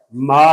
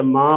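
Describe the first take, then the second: First: Said in the usual way. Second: ما with a nasal aa; nasalized vowel. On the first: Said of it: "غنے کی آواز کا ہونا اور نہ ہونا". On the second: Shown as a demonstration. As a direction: send the vowel of ما through the nose. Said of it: "غنے کی آواز کا ہونا".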